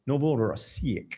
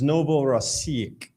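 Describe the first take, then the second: First: Slow, soft Novorossiysk said the Russian way, rolled and drawn out; Russian accent. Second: Said in the usual way. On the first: Shown as a demonstration. Host naming a Russian port, in Russian accent. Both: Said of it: "You gotta do that Russian accent on it".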